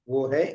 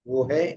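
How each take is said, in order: No difference in how they are said.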